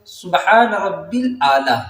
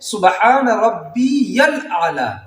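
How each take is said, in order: First: The middle word is said as rabbil. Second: The middle word is said as rabbiyal. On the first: The speaker calls it wrong. "लेकिन पढ़ते कैसे हैं लोग? ... ये गलत है।" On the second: The speaker calls it right. "सही ये है"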